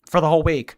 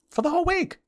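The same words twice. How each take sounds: First: Said in the usual way. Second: For the whole week in a squeaky voice far higher; high-pitched repeat. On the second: Acted. Streamer punishing a chatter, repeating it in a squeaky high voice. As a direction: squeak it like a pouty princess. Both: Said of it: "repeated in high voice".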